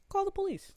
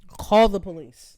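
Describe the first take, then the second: First: Much higher defiant "Call the police."; defiant dare. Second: Louder, slow "Call the police.", each word pressed; slow loud dare. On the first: Daring the lady to call. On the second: Repeating the dare. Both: Retold or imitated.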